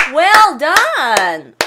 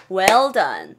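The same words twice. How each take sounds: First: Loud cheer of "Well done". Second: Said in the usual way. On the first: Pretend. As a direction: cheer like a fan at a basket. Cheering a basket.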